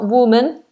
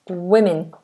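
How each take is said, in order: First: The first syllable sounds like 'woo'. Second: The first syllable sounds like 'wi'. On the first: The speaker calls it wrong. "it's not woman" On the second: The speaker calls it right. "it's women. Women, like wi"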